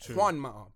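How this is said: The name is said with an English accent. The speaker calls it wrong. "Same way you guys will say"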